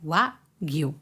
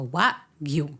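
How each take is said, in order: The two takes are said the same way.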